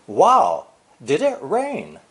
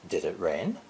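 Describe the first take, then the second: First: Loud "wow", then "did it rain?" with stress on "it" and a falling tune; emphatic question. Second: "did it rain?" quiet with a rising tune; plain question. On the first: Teacher showing emphasis on the fact in a question. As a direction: exclaim "wow, did it rain?" and bring "it" down hard. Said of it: "emphasis on this fact". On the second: Teacher contrasting a simple question with an emphatic one. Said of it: "a question about this fact". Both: Shown as a demonstration.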